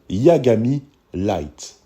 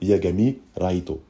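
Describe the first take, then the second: First: The name ends in an English-style "light". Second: The name ends in a Japanese-style "raito".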